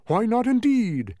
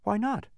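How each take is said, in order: First: High, loud, slow exclamation; drawn-out humbug outburst; exclaiming bug. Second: High-pitched simple question; high, unforced boy's query. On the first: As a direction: exclaim it grandly. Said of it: "exclaimed the bug". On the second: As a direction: ask it innocently, rising. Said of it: "asked Milo". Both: A narrator's reading.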